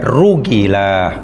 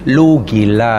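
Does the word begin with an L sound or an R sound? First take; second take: R sound; L sound. First: The word begins with an R sound. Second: The word begins with an L sound. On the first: The speaker calls it right. "Pelat yang betul ya" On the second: The speaker calls it wrong. "kalau dipelat tak betul"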